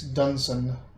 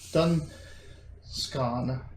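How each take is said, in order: First: The middle C sound is silent. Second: The middle C sound is pronounced. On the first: The speaker calls it right. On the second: The speaker calls it wrong.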